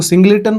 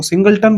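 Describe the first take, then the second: First: सिंगलेटन said with an extra "le" syllable, sing-le-ton; variant pronunciation. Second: सिंगलटन said as "single" plus "ton"; variant pronunciation. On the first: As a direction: say सिंगलेटन in three syllables, "le" in the middle. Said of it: "कुछ लोग इसको सिंगलेटन बोलते हैं". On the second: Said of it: "कुछ लोग इसको सिंगलटन बोलते हैं". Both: Shown as a demonstration.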